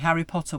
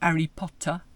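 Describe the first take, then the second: First: The H in Harry is pronounced normally. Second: The H in Harry is dropped, French-style.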